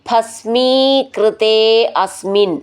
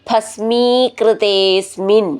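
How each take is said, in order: First: The two words are said separately. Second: The two words are joined into one.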